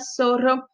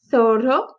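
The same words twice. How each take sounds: First: The first sound is a hissing s. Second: The first sound is a lisped th. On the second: "Pero em Espanha, tem o som do T H do inglês"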